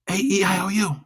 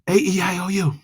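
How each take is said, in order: No difference in how they are said.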